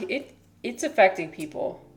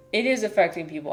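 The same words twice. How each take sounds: First: Said in the usual way. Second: "is" hit firmly, the line pushed along faster; stress on is. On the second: Real, not acted. To chat, insisting it really is, stressing "is". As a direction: lean on "is" to insist it's true.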